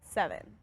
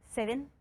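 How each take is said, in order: First: It is said in a Nashville accent. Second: It is said in an Australian accent.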